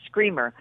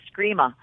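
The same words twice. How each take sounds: First: Said in the usual way. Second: Imitated New England r-less ending on "screama"; New England accent. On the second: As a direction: say "screama" New England style, final r dropped to "ah". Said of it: "he had a New England accent".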